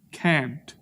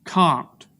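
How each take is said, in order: First: "Can't" with the short A of "cat"; short flat A. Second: "Can't" with a broad "ah" vowel; long broad A. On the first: Showing inconsistent A's, "Can't" with the A of "cat". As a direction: say "Can't" with a fronted, short-A vowel. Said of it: "I say both of those". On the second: Showing inconsistent A's, "Can't" with a long "ah". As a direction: say "Can't" with the A of father. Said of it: "I'm inconsistent with my A's". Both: Shown as a demonstration.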